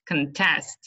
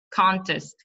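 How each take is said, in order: First: "contest" as the verb, con-TEST; last-syllable stress. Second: "Contest" as the noun, CON-test; first-syllable stress. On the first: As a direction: lean on the end of "contest". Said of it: "The stress is on the last". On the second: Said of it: "on the first syllable". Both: Shown as a demonstration.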